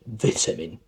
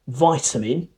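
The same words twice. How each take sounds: First: It is said in a British accent. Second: It is said in an American accent. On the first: "in British English, vitamin" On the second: "in American English, you might more likely to hear vitamin"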